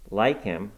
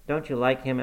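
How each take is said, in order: First: "Like" hit hard and falling, incredulous; scornful exclamation. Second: Said in the usual way. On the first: A narrator's reading. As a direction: throw "Like him!" back in disbelief. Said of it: "I exclaimed". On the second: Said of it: "Like him! I exclaimed".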